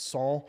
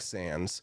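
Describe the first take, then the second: First: It is pronounced the French way. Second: It is pronounced the plain English way. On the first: "the way that it's supposed to be" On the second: "Comic Sans"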